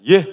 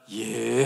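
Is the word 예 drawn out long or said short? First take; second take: short; long. First: The word is said short and clipped. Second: The word is drawn out long. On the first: The speaker calls it wrong. "이게 아니라" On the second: The speaker calls it right. "예를 좀 길게 하세요"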